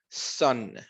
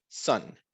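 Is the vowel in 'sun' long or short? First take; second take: short; short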